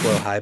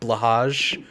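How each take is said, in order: First: It is said like 'blow high'. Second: It is said like 'blah hahj', following the letters. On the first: "which I believe is pronounced blowhigh" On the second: "but it's spelled like blahage"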